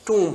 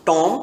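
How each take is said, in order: First: टूम with a long oo, silent b, like toom; टूम, the right way, long oo; correct tomb pronunciation. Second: टॉम with an open o like Tom, the wrong way; टॉम, the common mistake for tomb; wrong tomb pronunciation. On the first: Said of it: "ये टॉम नहीं है". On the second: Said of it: "जो कि गलत हो जाएगा". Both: Shown as a demonstration.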